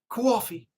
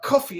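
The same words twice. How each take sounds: First: It is said in a New York accent. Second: It is said in the speaker's ordinary accent.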